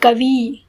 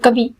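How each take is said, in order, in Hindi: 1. आखिरी स्वर लंबा है और खींचकर बोला जाता है। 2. आखिरी स्वर छोटा है और जल्दी बोला जाता है। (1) "मैं खींच के बोलूंगी" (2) "हम जल्दी से बोलते हैं"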